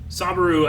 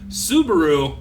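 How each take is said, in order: First: The name begins with the syllable 'sa'. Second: The name begins with the syllable 'su'. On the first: The speaker calls it wrong. "I keep saying it wrong" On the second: The speaker calls it right. "like the car"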